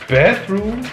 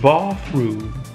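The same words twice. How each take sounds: First: It is said with an American English accent. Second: It is said with a British English accent. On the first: "American English" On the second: "British English"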